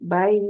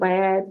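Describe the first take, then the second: First: The vowel glides softly into the y sound. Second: The vowel is said full, without the soft glide. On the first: The speaker calls it right. "इसको यालीन कहेंगे" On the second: The speaker calls it wrong. "इस तरह नहीं पढ़ा जाएगा"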